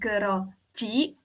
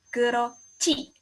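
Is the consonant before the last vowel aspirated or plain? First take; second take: plain; aspirated. First: The last consonant is said without a puff of air. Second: The last consonant is said with a puff of air. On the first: The speaker calls it wrong. "bukan keroci" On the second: The speaker calls it right. "ada udara yang keluar"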